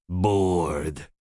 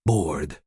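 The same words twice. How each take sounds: First: Bored stretched slow and low; long weary Bored; drawn-out bored. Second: Bored said low and short; Bored clipped low, a bored sigh. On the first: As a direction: drag the word Bored out, sulking. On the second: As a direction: drop the word Bored low and quick. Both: A narrator's reading. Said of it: "Zoe was bored".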